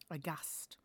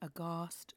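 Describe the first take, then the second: First: The stressed vowel is a short northern 'a'. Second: The stressed vowel is a long southern 'ah'. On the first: "will become aghast" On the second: "as in aghast"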